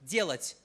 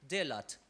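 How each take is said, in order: First: The name is said with a Russian pronunciation. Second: The name is said with an English pronunciation. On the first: "if I pronounce it in Russian" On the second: "in English it would be"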